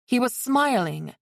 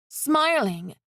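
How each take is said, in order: First: Said in the usual way. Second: "Smiling" said high with a falling tune; "Smiling" lifted high, then falling in disbelief; stressed in disbelief. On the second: A narrator's reading. Stunned repeat of the word.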